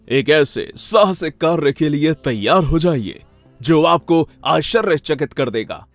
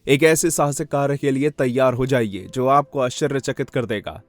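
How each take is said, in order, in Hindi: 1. यह भावपूर्ण तरीके से, दो विरामों के साथ बोला गया है। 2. यह बिना किसी भाव के, सपाट तरीके से बोला गया है। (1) "दो पॉज।" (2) "बिल्कुल लैक ऑफ एक्सप्रेशन के साथ बोलूं"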